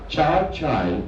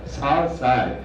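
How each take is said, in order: First: Both words begin with a 'ch' sound. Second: Both words begin with an 's' sound. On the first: The speaker's home region stays hidden. "If I say char chai" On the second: It reveals that the speaker is Assamese. "in Assamese ways, if I pronounce it sar sai"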